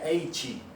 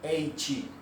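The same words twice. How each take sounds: Both takes have the same delivery.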